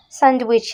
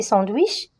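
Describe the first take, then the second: First: "Sandwich" said the English way, SAND-wich; "Sandwich" as an English word, first vowel not nasal; English pronunciation. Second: "sandwich" said the French way, sɑ̃-dwich; "sandwich" as a French word, ending on a rise; French pronunciation. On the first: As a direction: give "Sandwich" an English front "a". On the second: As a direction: give "sandwich" a nasal French "an". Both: Shown as a demonstration. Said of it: "c'est sandwich".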